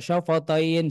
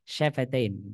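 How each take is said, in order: First: The f and vowel sound heavy and dark. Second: The f and vowel sound light and thin. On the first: The speaker calls it wrong. "bukan syofo syafatain seperti itu" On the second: The speaker calls it right. "Syafatain harus dilemesin"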